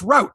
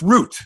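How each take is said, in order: First: It is said the American way. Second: It is said the local, non-American way. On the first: "there it's route" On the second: "Here it's root"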